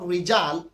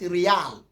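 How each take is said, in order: First: The middle consonant is a j sound. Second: The middle consonant is a y sound. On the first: "in Saudi Arabia, what you call rijal" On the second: "when you go to Kuwait, they call it riyal"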